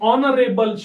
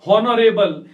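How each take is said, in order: First: The word begins with a vowel, no h. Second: The word begins with an audible h sound. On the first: The speaker calls it right. "बल्कि ये है ऑनरेबल शब्द है" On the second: The speaker calls it wrong. "नहीं हॉनरेबल"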